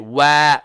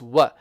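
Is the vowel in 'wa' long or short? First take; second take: long; short. First: The vowel is stretched out long. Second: The vowel is kept short. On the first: The speaker calls it wrong. "don't stretch it now. Don't say wa" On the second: The speaker calls it right. "No, it's wa"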